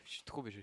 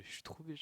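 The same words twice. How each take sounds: First: Said in the usual way. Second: Playful take, pitched higher; higher put-on voice. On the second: Repeating the phrase in a put-on voice.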